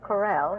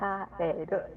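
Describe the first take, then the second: First: It is said with English sounds and an L. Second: It is said with Japanese sounds, as ka-re-ru. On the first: "Chris's last name is Correll" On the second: "when you put it into Japanese characters, it's a kareru"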